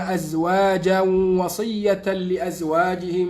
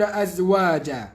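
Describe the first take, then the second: First: The words run on without a stop. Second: There is a stop after أَزْوَاجًا. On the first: The speaker calls it right. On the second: The speaker calls it wrong.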